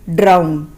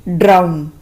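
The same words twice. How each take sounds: No difference in how they are said.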